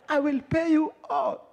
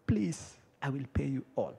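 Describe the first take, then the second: First: High, strained choked plea; hammed-up strangled begging; throttled begging. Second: Soft, low plea after a pause; subdued acted "please" of a debtor; meek begging. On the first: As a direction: plead as if held by the throat. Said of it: "achilia throat yangu". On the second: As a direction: beg quietly and helplessly.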